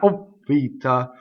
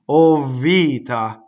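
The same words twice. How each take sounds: First: The V sound is single and short. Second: The V sound is doubled and lengthened. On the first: The speaker calls it wrong. "Not O vita" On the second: The speaker calls it right. "Notice how I doubled V"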